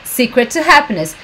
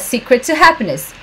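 The two takes are said the same way.

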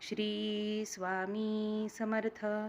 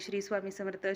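First: The phrase is said slowly and deliberately. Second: The phrase is said quickly and hurriedly. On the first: The speaker calls it right. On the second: The speaker calls it wrong.

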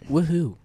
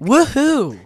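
First: The cheer is flat and low in energy. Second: The cheer is livelier and higher in energy. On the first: The speaker calls it wrong. "You sound so enthusiastic" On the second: The speaker calls it right. "that was a little better"

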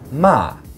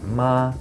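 First: The pitch starts high and falls sharply. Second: The pitch stays high and level. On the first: It means to scold. "fourth tone. It starts high and it falls" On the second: It means mother. "the first tone, the high flat tone"

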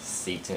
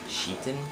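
First: The name begins with an s sound. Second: The name begins with a sh sound. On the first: The speaker calls it wrong. "A lot of people pronounce it as Seton" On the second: The speaker calls it right. "it's actually pronounced Sheetan"

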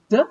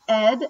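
First: The ending is a voiced 'd' sound. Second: The ending is a full syllable, 'id'. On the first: "You can say ed, d, as in opened" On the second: "You can say ed, ed, as in founded"

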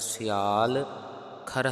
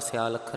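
First: The two words are kept apart with a break. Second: The two words are run together without a break. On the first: The speaker calls it right. "ਵੱਖਰਾ ਵੱਖਰਾ ਉਚਾਰਨ ਕਰਨਾ ਹੈ" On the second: The speaker calls it wrong. "ਇਕੱਠਾ ਪਾਠ ਸਿਆਲ ਅੱਖਰ ਨਹੀਂ ਕਰ ਦੇਣਾ, ਉਚਾਰਨ ਗਲਤ ਹੋ ਜਾਵੇਗਾ"

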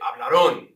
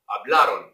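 First: The stress falls away from the middle syllable. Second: The stress falls on the middle syllable. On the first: The speaker calls it wrong. "A lot of you come in when you want to say hablaron. No, no" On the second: The speaker calls it right. "The stress is on that A"

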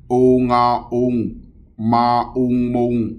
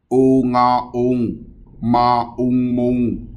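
Both takes have the same delivery.

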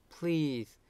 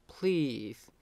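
No difference in how they are said.

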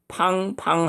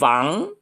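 First: It begins with a p sound, lips together. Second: It begins with an f sound, teeth on lip. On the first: The speaker calls it wrong. "팡팡 하면 안 됩니다" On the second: The speaker calls it right. "운이빨 가지고 밑에 입술을 물었다 띄면서 팡"

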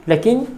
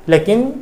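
No difference in how they are said.

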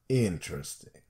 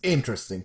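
First: It is said with a knowing, doubtful tune. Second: It is said plainly, as sincere praise. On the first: The person is weird. "whereas Tesla, interesting. You know, it's intonation" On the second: The person is genuinely fascinating. "I would describe Kyle Shanahan as interesting to me"

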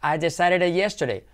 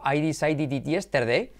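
First: The words run together in connected speech. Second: Each word is said separately and carefully. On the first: This is how a native speaker says it. "el nativo va a decir" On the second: This is how a learner says it. "tú vas con tu"

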